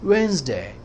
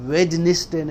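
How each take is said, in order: First: It is said as two syllables, wens-day. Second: Every letter is sounded, in three syllables. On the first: The speaker calls it right. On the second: The speaker calls it wrong.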